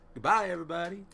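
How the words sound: The voice is pitched fairly low.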